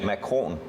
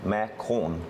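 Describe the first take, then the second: First: The word is said at a normal pace. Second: The word is said slowly and drawn out. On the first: "Say that again?" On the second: "Say it slowly"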